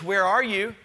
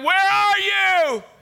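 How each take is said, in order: First: It is said as a plain question. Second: It is said as an anguished, pleading cry.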